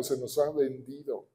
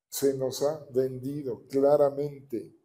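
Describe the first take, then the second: First: Said in the usual way. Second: Se nos ha vendido claramente spelled out slowly, claramente leaned on; slow down and press claramente; slow emphatic repeat. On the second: Shown as a demonstration. Preacher insists to the congregation, slow and deliberate. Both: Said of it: "repeats it slowly".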